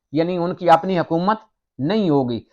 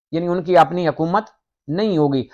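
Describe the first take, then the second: No difference in how they are said.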